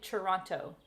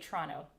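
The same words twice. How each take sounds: First: It is said in a non-Canadian way. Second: It is said in the Canadian way.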